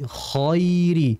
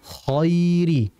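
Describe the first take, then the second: No difference in how they are said.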